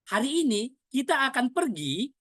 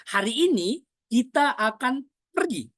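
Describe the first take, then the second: First: Higher question tune, "pergi" rising at the end; questioning intonation. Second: Higher, deliberate statement, "pergi" set apart and falling; pause, then land firmly on "pergi"; stress on pergi. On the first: Coach shows changed meaning, "pergi" rising as a question. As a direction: ask it, lifting the voice on "pergi". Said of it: "seperti kita bertanya". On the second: Coach demonstrates emphasis, "pergi" stressed and falling. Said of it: "perginya kita tekankan". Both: Shown as a demonstration.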